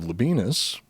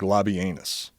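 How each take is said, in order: First: The name is said with everyday English sounds. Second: The name is said with classical Latin sounds.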